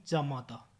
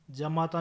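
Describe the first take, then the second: First: Said in the usual way. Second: जमाता with short ja; mispronunciation. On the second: Shown as a demonstration. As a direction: say ja-maa-taa for जमाता. (जमाता, छोटा ज) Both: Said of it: "नहीं".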